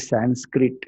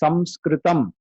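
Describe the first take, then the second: First: It has an n sound before the s. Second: It has an m sound before the s. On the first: The speaker calls it wrong. "please don't say Sanskrit" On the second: The speaker calls it right. "it is actually supposed to be S A M"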